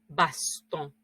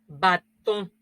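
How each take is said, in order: First: It is said with an s after the a. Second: It is said without an s after the a. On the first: The older form of the word. "si tuviéramos una S" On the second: The modern form of the word. "recuerden mi nasal"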